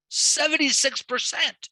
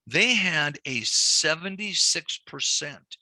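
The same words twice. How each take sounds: First: Seventy-six percent said much higher and slower, in disbelief; Seventy-six percent, stretched and pitched up high; emphatic repeat. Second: Said in the usual way. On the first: Shown as a demonstration. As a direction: repeat the figure with shocked emphasis.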